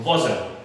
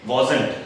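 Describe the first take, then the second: First: "wasn't" as wazn, t dropped; contracted wasn't. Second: "wasn't" as wa-zant with the t sounded; common wrong wasn't. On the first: Teacher giving the right form, reduced wasn't. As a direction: swallow the end of "wasn't". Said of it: "this is". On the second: Teacher showing the usual mistake, full wasn't. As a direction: give "wasn't" its full final t. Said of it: "ये wasn't नहीं होता". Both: Shown as a demonstration.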